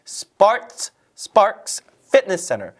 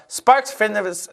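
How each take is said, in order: First: SPARKS said alone, drawn out, then Fitness Center; slow, stressed reading. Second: Sparks Fitness garbled in a hurry; rushed, tongue-tangled. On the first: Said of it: "천천히 읽으세요". (Sparks에 강세 주고 천천히 또박또박) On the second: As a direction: rush it until Fitness trips up. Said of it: "빨리 읽으려고 하다가". (Sparks Fitness를 빨리 읽다 꼬인 발음) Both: Shown as a demonstration.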